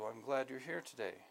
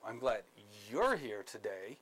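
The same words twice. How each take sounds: First: It is said in a plain, sincere tone. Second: It is said in a mocking, sarcastic tone. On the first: The speaker means it as a genuine welcome. "So that's very clear, straightforward" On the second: The speaker means it as a hidden insult. "a sarcastic tone, with the same exact words"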